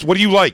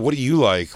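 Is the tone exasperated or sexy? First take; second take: exasperated; sexy. First: It sounds exasperated, like Christine's voice. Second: It sounds flirtatious and sexy.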